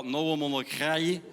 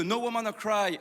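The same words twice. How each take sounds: First: Mock Carolo accent, slowed and lower than usual. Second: Said in the usual way. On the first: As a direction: exaggerate a slow Carolo accent. (accent carolo caricaturé, lent) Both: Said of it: "il perd pas son accent".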